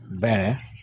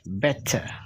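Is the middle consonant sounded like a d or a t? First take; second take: d; t. First: The middle t sounds like a soft d. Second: The middle t is a clear t. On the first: "American English" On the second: "British English"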